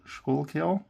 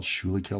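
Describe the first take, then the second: First: Schuylkill as two syllables, SKOOL-kill; tentative correct pronunciation. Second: Schuylkill as three syllables, SHOO-lee-kill; spelling pronunciation. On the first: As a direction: say Schuylkill like "school-kill", rising at the end. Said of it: "I think it's pronounced". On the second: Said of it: "but I think it's pronounced". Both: Shown as a demonstration.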